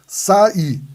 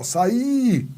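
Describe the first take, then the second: First: Saí broken into sa, í; syllable split. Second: Saí with a high, stretched Í; stressed lone vowel. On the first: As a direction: say "Saí" as two separate syllables. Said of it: "o que que eu tenho aqui". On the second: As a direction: hold the final "í" of Saí high and long. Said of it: "Tá sozinha na sílaba?". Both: Shown as a demonstration.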